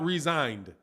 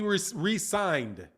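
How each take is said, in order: First: It is said as one smooth word. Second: It is said with a break after 're'. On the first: He quit. "not resigned" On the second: He signed again. "he re- signed"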